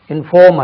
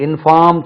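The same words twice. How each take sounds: First: இன்ஃபார்ம் with a rounded, loud FAWM; correct pronunciation. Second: இன்ஃபார்ம் with an open FAAM; mispronunciation demo. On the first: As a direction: hit a long aw in இன்ஃபார்ம். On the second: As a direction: show the faulty aa vowel in இன்ஃபார்ம். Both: Shown as a demonstration. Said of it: "இன்ஃபார்ம் சொல்லக்கூடாது".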